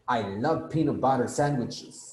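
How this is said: It is said in an American accent. "American butter"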